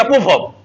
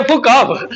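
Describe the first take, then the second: First: "पुफ अप" with the first f turned into p; lisped "पुफ अप", opening on p; mock lisp. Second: Said in the usual way. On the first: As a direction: imitate a lisper swapping f for p in "पुफ अप". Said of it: "फौ को ना पौ बोलता था". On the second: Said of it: "उसको बोलना चाहिए".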